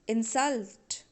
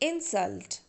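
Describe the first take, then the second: First: The stress is on the last syllable. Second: The stress is on the first syllable. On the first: The word is used as a verb. "when you pronounce a verb, then you have to give stress on last syllable" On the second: The word is used as a noun. "when you pronounce a noun, you have to give stress on first syllable"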